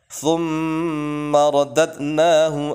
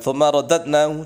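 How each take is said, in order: First: The m sound is held for two beats. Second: The m sound is short and not held. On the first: The speaker calls it right. "tapi thum berhenti di mem" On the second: The speaker calls it wrong. "jangan thumma radadnahu"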